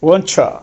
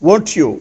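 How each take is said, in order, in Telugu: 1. t మరియు y కలిసి ch ధ్వనిగా మారుతాయి. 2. t మరియు y విడిగా ఉంటాయి.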